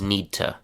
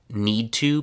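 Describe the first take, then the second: First: The words blend into one short reduced word. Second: Both words are said fully and separately.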